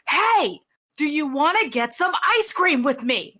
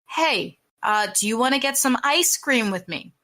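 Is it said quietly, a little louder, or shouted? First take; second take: shouted; a little louder. First: It is yelled loudly. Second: It is said a little louder than before.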